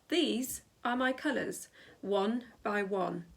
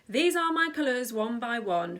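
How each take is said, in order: First: The line is read at a slower pace. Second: The line is read at a quicker pace.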